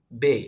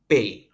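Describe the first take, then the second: First: It sounds like an Indonesian b. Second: It sounds close to an Indonesian p. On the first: The speaker calls it wrong. "Mungkin kita akan baca ini kayak b" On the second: The speaker calls it right. "Padahal bacanya bukan itu. Bacanya mirip p"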